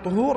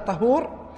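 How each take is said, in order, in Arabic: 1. المقطع الأول فيه الحركة u. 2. المقطع الأول فيه الحركة a. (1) "بالضم وهو التطهير" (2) "فهو الماء المستخدم"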